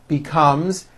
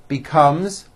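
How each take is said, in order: Both takes have the same delivery.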